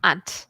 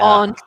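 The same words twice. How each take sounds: First: It is said in a plain American accent. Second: It is said in a British accent. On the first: "So I say aunt, the same as you" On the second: "That's that's an accent"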